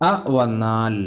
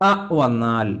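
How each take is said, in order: The two takes are said the same way.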